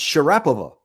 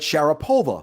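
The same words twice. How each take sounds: First: The name is said the Russian way. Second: The name is said the American way. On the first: This is how it is said in her home country. "her name is actually pronounced" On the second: This is how Americans came to say it. "you Americans started calling it"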